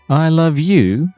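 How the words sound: The word you is stressed. It becomes a question. "If I put emphasis on the word you"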